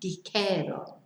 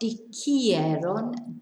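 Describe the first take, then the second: First: The middle syllable has no i sound, just 'je'. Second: The middle syllable has an extra i sound, 'jie'. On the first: The speaker calls it right. "we lose the I" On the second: The speaker calls it wrong. "Remember, in the third person plural, we lose the I. Not"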